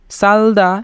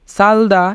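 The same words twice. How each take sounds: The two takes are said the same way.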